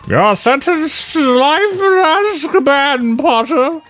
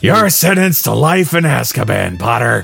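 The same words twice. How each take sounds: First: It is read in a normal voice. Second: It is read in a Nappa impression voice.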